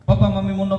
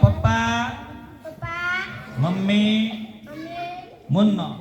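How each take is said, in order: First: The words are said loudly and fast together. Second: The words are said slowly with pauses between. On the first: The speaker calls it right. "જોરથી સ્પીડથી બોલવાનું" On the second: The speaker calls it wrong. "પણ જો આવી રીતે નહીં"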